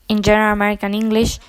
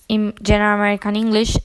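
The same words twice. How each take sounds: The two takes are said the same way.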